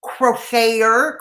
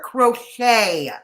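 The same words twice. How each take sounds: First: Crocheter said slowly as krow-shay-er; slow French pronunciation. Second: Crochet said krow-SHAY, falling; French pronunciation. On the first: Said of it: "It's pronounced crochet". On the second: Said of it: "Repeat after me". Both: Shown as a demonstration.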